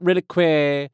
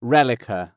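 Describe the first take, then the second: First: "Relique" said as "Ri-lick-way"; wrong pronunciation. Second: "Relica" said as "REL-i-ka", stress first; correct pronunciation. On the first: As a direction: say "Relique" ending in -kway. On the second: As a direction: say "Relica" with a plain -ka ending. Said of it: "Not Relique". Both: Shown as a demonstration.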